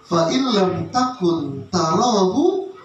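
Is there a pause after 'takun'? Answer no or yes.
no. It is read straight through without a pause. If you do not see Him, He sees you. The speaker calls it wrong. "Cara bacanya begitu"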